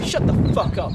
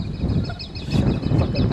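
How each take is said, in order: First: Loud sharp snap at a heckler; angry loud rebuke; snapped shut up. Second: Slow, deliberate, menacing repeat; slow threatening repeat; drawn-out shut up. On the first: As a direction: bark it at the guy. Shouting at someone off camera. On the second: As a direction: stretch every word out. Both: Real, not acted.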